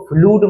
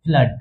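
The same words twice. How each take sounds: First: फ्लूड with an oo vowel, as in food; फ्लूड, oo in place of the short uh; mispronounced flood. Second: फ्लड with a short uh, like mud; फ्लड, the double o said as अ; short uh vowel. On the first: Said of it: "फ्लूड मत कह देना". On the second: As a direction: say flood as फ्लड, no oo sound. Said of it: "इसे क्या बोलेंगे?". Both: Shown as a demonstration.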